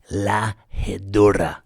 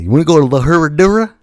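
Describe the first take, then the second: First: "La Herradura" with a Spanish tapped r; correct Spanish name. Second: "La Herradura" loud, fast, with an American r, rising; friend's American pronunciation. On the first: Shown as a demonstration. Recommending the restaurant, he says "La Herradura" the proper Spanish way. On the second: Retold or imitated. Mimicking his friend's Americanized "La Herradura", loud and fast. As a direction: blurt "La Herradura" the gringo way. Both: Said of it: "Not like what my friend said".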